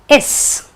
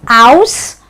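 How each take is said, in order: First: The ending is said with a short, weak vowel. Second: The ending is said with an 'ow' vowel. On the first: The speaker calls it right. "it will be pronounced as is" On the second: The speaker calls it wrong. "won't be pronounced as aus"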